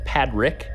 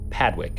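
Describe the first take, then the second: First: The second syllable starts with an R sound. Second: The second syllable starts with a W sound. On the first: The speaker calls it right. "Actually, it's Padrick" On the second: The speaker calls it wrong. "another name that I pronounced wrong"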